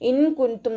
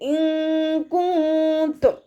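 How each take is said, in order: First: The n is pronounced clearly without nasal hiding. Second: The n is hidden with a nasal hum. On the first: The speaker calls it wrong. "ഇൻ കുന്തും നോതി പോവരുത്" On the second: The speaker calls it right. "നൂൻ സാക്കിനയെ മറച്ചു വെച്ചിട്ട് മണിച്ചോതി കൊടുക്കുക"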